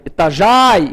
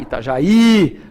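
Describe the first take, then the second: First: Itajaí said as ita-JÁI, A and I run together; Itajaí misstressed on the A, ita-JÁI; wrong stress on JÁI. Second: Itajaí as ita-ja-Í, the I long and separate; slow Itajaí with a drawn-out stressed final I. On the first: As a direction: punch JAI in Itajaí as one stressed diphthong. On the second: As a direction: land slowly on the last I of Itajaí. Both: Shown as a demonstration. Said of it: "temos tonicidade neste I".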